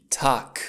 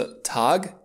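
First: "Tag" ending in a voiceless k; final g as K. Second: "Tag" ending in a voiced g, the mistaken way; voiced final g. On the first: Teacher corrects for learners, "Tag" with a hard final k. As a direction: say "Tag" as "tak", devoicing the g. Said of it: "nu se pronunță Tag, ci Tag". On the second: Teacher shows learners what to avoid, "Tag" with voiced final g. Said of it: "în mod normal, nu se pronunță Tag". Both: Shown as a demonstration.

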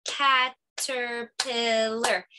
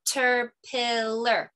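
First: "Caterpillar" very slowly, each syllable clapped apart. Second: "Caterpillar" slowly, syllable by syllable, with claps; clapped syllables. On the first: Teacher clapping syllables for the kids, very slow. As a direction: stretch "Caterpillar" into four clapped beats. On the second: Teacher demonstrating syllable clapping for kids, slow and even. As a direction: clap out "Caterpillar" slowly in four beats. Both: Shown as a demonstration. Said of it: "So I'll demonstrate".

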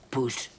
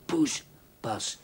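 First: Poes stressed and loud, with innuendo; suggestive stress. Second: Poespas louder, ending in a fall; knowing Poespas; suggestive stress. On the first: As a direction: lean on Poes with a wink. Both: Pretend. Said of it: "Ik weet heus wel wat poes is".

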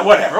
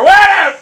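First: Brief annoyed brush-off, not yet yelled; irritated dismissal. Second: High, loud, exploding dismissal; exasperated yell. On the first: Gamer dropping his excuse for playing badly, irritated dismissal. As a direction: wave it away in irritation. Giving up in frustration, first take. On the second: Gamer snapping over his own excuse, exasperated yell. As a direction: yell it out, totally fed up. Same word, blown up. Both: Real, not acted.

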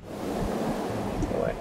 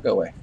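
First: Slow eerie whisper of "Go away", breathy and drawn out. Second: Said in the usual way. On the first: Pretend. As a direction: hiss "Go away" slowly like a ghost. Telling the creature to leave.

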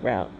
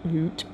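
First: "route" said to rhyme with out; route like rout. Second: "route" said to rhyme with boot; route like root. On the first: Reader trying one way to say route, rhymes with out. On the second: Reader correcting to the other pronunciation, root. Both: Shown as a demonstration. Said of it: "however y'all wanna pronounce that".

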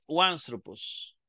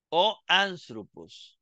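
First: "uanthropos" run together, "o" gliding into "an" as "wan"; slow single word "uanthropos", starting "wan-"; read as one word. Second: O and anthropos said as separate words; slow "o anthropos", the "o" held apart; read as two words. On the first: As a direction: glide straight into "uanthropos" with a w sound. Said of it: "Entonces se lee". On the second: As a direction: keep "o" distinct before "anthropos". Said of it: "leeríamos en español". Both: Shown as a demonstration.

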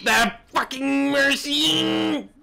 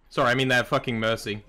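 First: Drawn-out high gremlin screech. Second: Said in the usual way. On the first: Pretend. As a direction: stretch it out like a gremlin. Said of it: "I went gremlin". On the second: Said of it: "I forgot how to speak for a minute".

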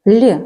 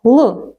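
First: Л said soft and palatal, like "lee". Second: Л said hard and dark, with no y-glide. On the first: Teacher asks children hard or soft, Л said soft. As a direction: soften Л with the tongue raised. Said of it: "звук Л м'який". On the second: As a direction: keep Л unsoftened, a dark L. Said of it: "Так, твердий". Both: Shown as a demonstration.

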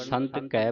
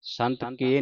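First: ਕੈ with an open "ai" after ਸੰਤ; open vowel. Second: ਕੇ with a close "e" after ਸੰਤ; wrong vowel. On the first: Teacher corrects the reading, ਕੈ with open "ai". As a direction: say ਕੈ as wide "keh". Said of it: "ਸੰਤ ਕੈ ਪੜ੍ਹਨਾ". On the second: Teacher shows what not to read, ਕੇ with close "e". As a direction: say ਕੇ as narrow "kay". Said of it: "ਸੰਤ ਕੇ ਨਹੀਂ ਪੜ੍ਹਨਾ". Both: Shown as a demonstration.

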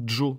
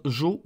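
First: Second "Jo" with a d before the j; "Jo" starting on a dj sound. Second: No d before the J of "Jo"; "Jo" starting on zh; plain J. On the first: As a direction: attack "Jo" as djo. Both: Shown as a demonstration. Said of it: "un espèce de D au début".

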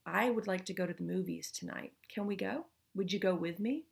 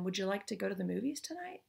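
First: I would like to go to the movies tonight said as a request, stress on I; a request posing as a question, leaning on I; statement disguised as question. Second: Would you like to go to the movies tonight said as an open question, rising on tonight; genuine question. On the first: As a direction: push your own wish, stress on I. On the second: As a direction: ask openly, lift at the end on tonight. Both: Shown as a demonstration. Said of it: "That's different than".

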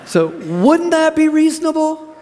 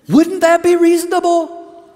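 First: High, loud and slow, drawing the question out; preacher demanding a response; rousing challenge. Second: High, loud, ringing question; preacher pushing the crowd to answer; rousing challenge. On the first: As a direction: press them again for an answer. Preacher repeats challenge louder. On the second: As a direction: call it out to the whole room. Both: Real, not acted.

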